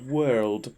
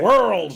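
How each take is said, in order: First: The word is said in a careful neutral accent. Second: The word is said with a West Country accent. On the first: The speaker calls it right. "I really focused on it. I went like "world"" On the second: The speaker calls it wrong. "the usual like "worlds" like I usually do"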